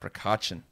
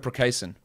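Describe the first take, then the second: First: The surname has a ch sound in the middle. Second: The surname has an s sound in the middle. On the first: The speaker calls it right. "It's uh Roko Prokachin" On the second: The speaker calls it wrong. "now I'm going to mispronounce this"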